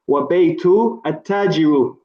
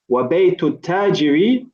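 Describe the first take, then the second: First: The last word ends with a 'u' vowel. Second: The last word ends with an 'i' vowel. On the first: The speaker calls it wrong. "there was a slight mistake in the pronunciation" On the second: The speaker calls it right. "Must end with a kasra"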